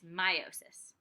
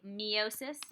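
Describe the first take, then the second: First: The first syllable sounds like 'my'. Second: The first syllable does not sound like 'my'. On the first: The speaker calls it right. "but it's meiosis" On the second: The speaker calls it wrong. "A lot of times you might say meiosis"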